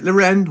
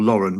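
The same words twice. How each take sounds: First: Lauren said "luh-REN"; stress on second syllable. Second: Lauren said "LOR-en"; stress on first syllable. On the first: Unsure of the shop's name, Lauren as "luh-REN". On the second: Offering the other option, Lauren as "LOR-en". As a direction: say Lauren with the weight up front, "LOR-en". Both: Shown as a demonstration. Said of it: "Is it Lauren or Lauren".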